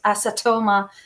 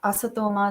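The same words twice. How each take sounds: First: The T is said as a hard T. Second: The T is said soft, not hard. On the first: The speaker calls it wrong. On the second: The speaker calls it right.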